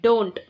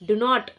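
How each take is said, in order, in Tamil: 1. இது ஒரு குறுகிய சுருங்கிய வார்த்தையாக சொல்லப்படுகிறது. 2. இது இரண்டு முழு தனித்தனி வார்த்தைகளாக சொல்லப்படுகிறது. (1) "டோன்ட்ன்னு நம்ம மென்ஷன் பண்றோம்" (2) "டு நாட்ன்றத ஷார்ட்டா எழுதி"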